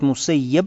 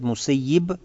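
First: The last syllable has an 'a' vowel. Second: The last syllable has an 'i' vowel. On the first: The one who was abandoned. "это значит покинутый, брошенный" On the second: The one who abandons others. "тот, который наоборот покинул и оставил кого-то"

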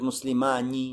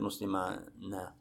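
First: The final nun carries an 'i' vowel. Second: The final nun carries an 'a' vowel. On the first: The speaker calls it right. "Кесру фантаби. Говорит, муслимани" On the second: The speaker calls it wrong. "не говорят муслимана"

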